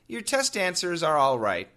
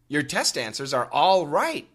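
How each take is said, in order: First: The word 'all' gets no extra emphasis. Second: The word 'all' gets extra emphasis. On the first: The answers are acceptable but not perfect. "All right, as one word, actually means satisfactory" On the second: The answers are completely correct. "all does get a little bit more emphasis"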